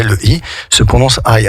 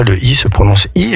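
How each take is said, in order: First: Second I said "aï", a gliding diphthong; letter I pronounced "aï"; I as "eye". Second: Second I said as a pure "ee"; letter I pronounced "ee". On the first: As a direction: say the last I like English "eye". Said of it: "mais le I se prononce I". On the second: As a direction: say the last I like French "ee", as in "si". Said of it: "parfois le I se prononce I". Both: Shown as a demonstration.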